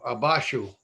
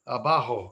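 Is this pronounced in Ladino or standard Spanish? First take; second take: Ladino; standard Spanish. First: It is pronounced the Ladino way, with sh. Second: It is pronounced the standard Spanish way.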